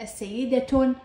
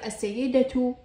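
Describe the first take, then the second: First: السيدة said as-sayyidatun, final tun; nunated t ending. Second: السيدة said as-sayyidatu, final tu; voweled t ending. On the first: Teacher voweling the word for students, السيدة ending in tun. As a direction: end السيدة on a ringing tun. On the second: Teacher voweling the word for students, السيدة ending in tu. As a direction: end السيدة on a clear tu. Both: Shown as a demonstration. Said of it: "عند تحريكها تلفظ تاء".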